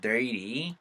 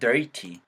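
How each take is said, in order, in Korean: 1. 중간 자음은 빠른 flap 소리입니다. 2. 중간 자음은 분명한 T 소리입니다. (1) "T 사운드가 리로 바뀌면서 dirty 사운드로 바뀌는 거죠" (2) "거기다가 T 사운드예요. 그러니까 dirty요"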